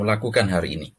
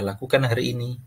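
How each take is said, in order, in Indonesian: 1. Pertanyaan itu diucapkan dengan nada marah. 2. Pertanyaan itu diucapkan dengan nada netral. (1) "Yang pertama, bisa jadi menunjukkan bahwa saya sedang marah" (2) "nada yang kedua bisa jadi saya memang hanya ingin bertanya"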